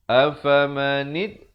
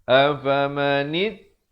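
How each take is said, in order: The two takes are said the same way.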